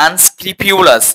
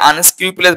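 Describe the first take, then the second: First: "আনস্ক্রুপুলাস" sounded out with pyu-las; correct pronunciation. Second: "আনস্ক্রুপুলাস" ending pu-les; common mispronunciation. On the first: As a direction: put a y glide in pu of আনস্ক্রুপুলাস. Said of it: "উচ্চারণটা correct হচ্ছে কি". (শুদ্ধ উচ্চারণে "আনস্ক্রুপুলাস", পিউলাস) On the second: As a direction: say আনস্ক্রুপুলাস with plain pu, no y glide. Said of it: "যদিও এটা উচ্চারণটা correct". (ভুল উচ্চারণে "আনস্ক্রুপুলাস") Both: Shown as a demonstration.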